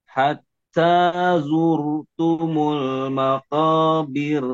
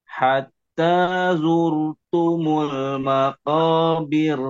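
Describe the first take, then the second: The two takes are said the same way.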